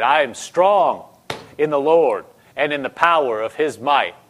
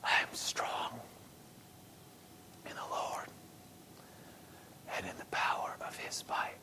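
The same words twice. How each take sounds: First: Full-voiced, firm declaration; confident, emphatic confession; rising strength. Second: Weak, halting whisper with long pauses; faint, effortful whispered confession; soft whisper. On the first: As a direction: declare it with strength risen up in you. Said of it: "Stuff was just rising up in her". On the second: Retold or imitated. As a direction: whisper it piece by piece, barely any strength.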